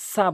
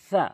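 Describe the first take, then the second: First: The consonant is a plain hissing s. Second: The consonant is a lisped th-like sound. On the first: The speaker calls it wrong. "সা বলবেন না। সা বললে সিনের উচ্চারণ চলে আসলো" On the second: The speaker calls it right. "সা বলতে হবে সা"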